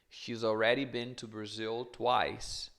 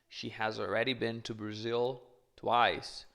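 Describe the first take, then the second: First: She and has are contracted into one syllable. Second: She and has are said as two full words.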